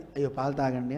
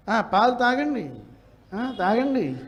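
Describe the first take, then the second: First: Low, soft "అయ్యో పాలు తాగండి" as a gentle offer; softly and kindly, host to guest. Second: Mocking sarcasm. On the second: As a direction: sneer that the guest got it free. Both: Shown as a demonstration. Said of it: "అర్థం మారిపోవట్లే".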